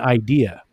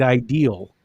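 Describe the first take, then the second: First: The word ends in a vowel without L. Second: The word ends with an added L sound. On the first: "they mean idea" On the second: "definitely an L"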